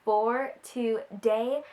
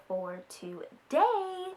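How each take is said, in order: First: Dramatic slow intro; very slow, drawn-out intro. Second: Slow drawn out. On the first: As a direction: stretch For today out slowly. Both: Shown as a demonstration.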